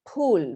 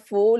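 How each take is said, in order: First: It begins with a breathy p sound. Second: It begins with an f sound. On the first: The speaker calls it right. "you say Phool, which is flower" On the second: The speaker calls it wrong. "It's not fool"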